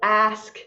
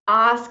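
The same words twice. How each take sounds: First: It is said in a North American accent. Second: It is said in a British accent. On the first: "not to have the North American accent" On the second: "speak with a British English accent"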